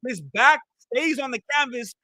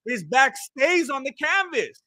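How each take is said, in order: First: Said in the usual way. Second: "His back stays on the canvas" slowed down, leaning on "stays"; slow emphatic repeat. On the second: Shown as a demonstration. Commentator repeating his point to the viewers, slow with "stays" stressed. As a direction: spell out "stays" slowly so it lands. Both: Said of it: "Let me repeat".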